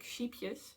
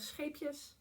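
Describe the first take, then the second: First: It is said with an English-style pronunciation. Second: It is said with a Dutch pronunciation. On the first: It sounds like 'little sheep'. The speaker calls it wrong. "native English speakers pronounce uh, this yarn brand, because they pronounce it like sheepjes" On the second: It means 'little ships'. The speaker calls it right. "But it's it is actually little ships"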